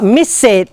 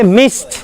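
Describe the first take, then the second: First: The ending is an extra 'id' syllable. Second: The ending is a single t sound. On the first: The speaker calls it wrong. "It's not miss it" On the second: The speaker calls it right. "Okay, missed"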